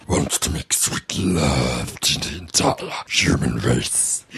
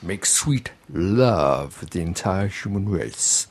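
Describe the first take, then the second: First: Extremely deep, slow loverman voice; voice forced down low. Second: Low, slow seduction voice. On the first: Shown as a demonstration. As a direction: push it painfully low, as deep as it goes. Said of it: "Well, I can, but it hurts me". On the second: Retold or imitated. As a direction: croon it like a soul loverman, half-deep.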